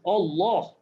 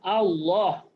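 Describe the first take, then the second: First: The first vowel sounds like 'o'. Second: The first vowel sounds like 'a'. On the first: The speaker calls it wrong. "Bukannya alif datang O" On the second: The speaker calls it right. "Alif datang A jadi Allah"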